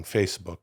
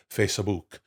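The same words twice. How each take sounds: First: Said in the usual way. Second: Facebook said Italian-style as "face-a-book"; Facebook in three syllables with an Italian accent; Italian pronunciation. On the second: Shown as a demonstration. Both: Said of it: "as they call it in Italy".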